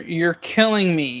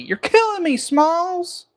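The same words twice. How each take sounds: First: Said in the usual way. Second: Much higher, exasperated mock cry; high-pitched, theatrical mock exasperation; hammed-up movie quote.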